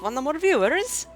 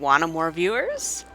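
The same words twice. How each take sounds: First: It is read in a put-on Italian accent. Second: It is read in the speaker's ordinary accent.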